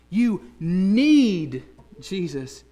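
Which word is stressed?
need. The stress is on the word need.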